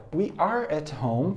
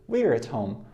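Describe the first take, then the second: First: We are at home, we and are kept apart; teacher modelling the long form We are; full form. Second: We're at home, we're as one short syllable; teacher modelling the contraction We're; contracted form. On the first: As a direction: say We are at home with both words whole. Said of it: "Forma longa". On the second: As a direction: glide We're at home together. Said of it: "Forma contraída". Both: Shown as a demonstration.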